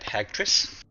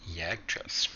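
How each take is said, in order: First: The name begins with an H sound. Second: The name begins with a J sound.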